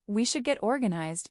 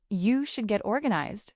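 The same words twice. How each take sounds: First: Said in the usual way. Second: "You" stressed, then falling away. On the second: Acted. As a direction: lean on the word "You". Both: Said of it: "she really means".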